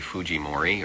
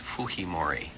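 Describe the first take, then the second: First: The name is said with a Japanese pronunciation. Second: The name is said with a Spanish pronunciation. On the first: "The Japanese pronunciation is probably Fujimori" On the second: "The Spanish pronunciation is Fujimori"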